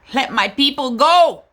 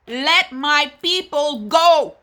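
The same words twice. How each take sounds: First: Louder, higher, firm call; rallying cry. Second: Slow, higher, every word stretched; drawn-out rallying cry. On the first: Activist mother calls for freedom, loud and firm. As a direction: proclaim it like a protest chant. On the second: Activist mother repeats the call, slow and soaring. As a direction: let it ring out like a hymn. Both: Real, not acted.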